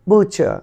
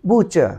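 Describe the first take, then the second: The two takes are said the same way.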